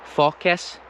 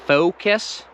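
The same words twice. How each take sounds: First: Focus as "FAW-kus"; wrong short-O focus. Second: Focus as "FOH-kus"; English focus. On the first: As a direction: open the O in focus to "aw". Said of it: "There's a big difference". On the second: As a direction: glide the O in focus. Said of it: "You hear the difference between". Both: Shown as a demonstration.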